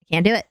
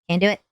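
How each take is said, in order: Both takes have the same delivery.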